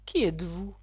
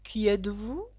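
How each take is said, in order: First: Contemptuous. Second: Understated drowsy, dragging question; sleepy drawl. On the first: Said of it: "d'un ton de mépris". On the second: Caterpillar first addressing Alice, mildly sleepy and drawling. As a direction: ask it a little sleepily, trailing along. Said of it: "d'une voix endormie et traînante". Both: A narrator's reading.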